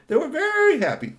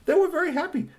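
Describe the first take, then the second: First: Very high, louder happy cry; high joyful yell; happy shout. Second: Very high, sing-song happy repeat; sing-song version of the line. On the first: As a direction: shout it out with glee. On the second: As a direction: lift it up high with joy. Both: Shown as a demonstration. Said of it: "the Tall Tale family was very happy".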